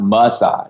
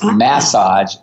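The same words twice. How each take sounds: First: It is said the American way. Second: It is said the Australian way. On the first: "not massage" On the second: "over here it's massage"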